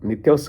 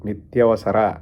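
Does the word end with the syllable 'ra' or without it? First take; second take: without; with. First: The word ends without its final 'ra' syllable. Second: The word ends with its full 'ra' syllable. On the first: The speaker calls it wrong. "నిత్యావస కాదు" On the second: The speaker calls it right. "కాదు నిత్యావసర"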